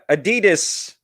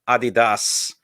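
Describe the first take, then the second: First: It is said with an American pronunciation. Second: It is said with a German pronunciation. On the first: "is how us Americans say it" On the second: "in German it's more Adidas"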